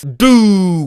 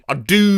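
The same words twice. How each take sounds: First: Said in the usual way. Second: Long drawn-out South African "do", swelling; South African accent. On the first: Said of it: "with accent and crescendo". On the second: Shown as a demonstration. Performer retrying a written sound, South African accent with crescendo. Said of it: "by accent they mean South Africa".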